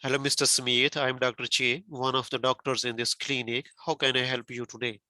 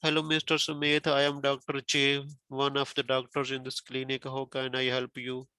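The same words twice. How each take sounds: First: Greeting with key words stressed; good intonation example. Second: Monotone doctor's introduction; poor intonation example. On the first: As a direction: introduce yourself with natural stress and melody. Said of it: "Like this". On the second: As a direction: recite the greeting evenly, no word stressed. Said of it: "Okay, this is not good". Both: Shown as a demonstration.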